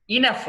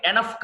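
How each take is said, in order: First: ఇనఫ్ opens on a short i; correct pronunciation. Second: ఎనఫ్ opens on an e; mistaken pronunciation. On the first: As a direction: say ఇనఫ్ as "i-NUF". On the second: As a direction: say ఎనఫ్ as "eh-NUF". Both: Shown as a demonstration. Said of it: "ఎనఫ్ కాదు".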